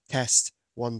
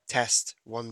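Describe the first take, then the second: First: The voice has a deepening equalization. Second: The voice has a clarity low-pitch equalization. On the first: "This is the deep voice EQ" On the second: "This is the clarity low pitch EQ"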